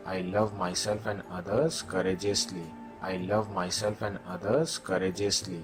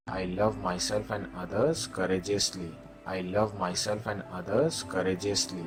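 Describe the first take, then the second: No difference in how they are said.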